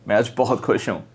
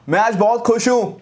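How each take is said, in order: First: It is said softly but still with emotion. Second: It is shouted loudly without sounding happy. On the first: The speaker still sounds happy. The speaker calls it right. "धीरे भी बोला तो भी emotion आया" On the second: The speaker does not sound happy. The speaker calls it wrong. "मैं चिल्लाया but वो ऐसा नहीं लगा कि मैं खुश हूं।"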